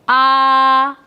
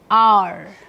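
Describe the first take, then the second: First: The vowel is said with no r sound. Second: The vowel is said with an r sound. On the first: "In British English it is pronounced as" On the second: "in American English it is pronounced as"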